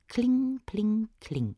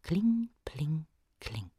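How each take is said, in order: First: High, bright-struck anvil clinks; high sing-song clinking; ringing hammer chime. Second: Hushed, fading clinks; quiet echo of an anvil; soft distant chime. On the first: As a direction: ring it out like hammer blows. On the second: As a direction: let it ring faintly from far away. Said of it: "in der Ferne ein leises". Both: A narrator's reading.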